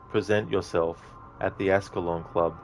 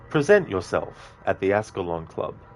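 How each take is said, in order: First: It is said flat and robotic. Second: It is said with lively energy. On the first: The speaker calls it wrong. "a bit more robotic and not as energetic" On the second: The speaker calls it right. "That puts a bit of like, you know, energy into it"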